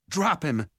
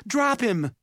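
First: Higher but controlled order, not yelled; firm repeated command. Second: High, forceful shout; urgent yelled command. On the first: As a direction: repeat the order firmly without shouting. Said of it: "Simon repeated". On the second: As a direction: yell it as an emergency order. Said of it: "Simon yelled". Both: A narrator's reading.

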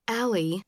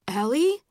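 First: Gentler, understated call; concerned. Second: Said in the usual way. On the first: A narrator's reading. Dad outside the closet checking on Allie, gently concerned. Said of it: "Dad said in a different voice".

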